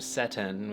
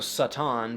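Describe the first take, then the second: First: The first vowel is an e sound. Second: The first vowel is an open ah sound. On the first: "which became e" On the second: "the sound ah"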